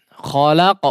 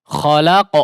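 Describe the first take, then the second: No difference in how they are said.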